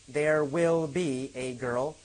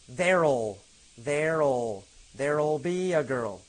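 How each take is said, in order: First: The word will is said in full. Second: The word will is reduced onto there.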